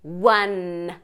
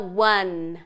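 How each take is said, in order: Both takes have the same delivery.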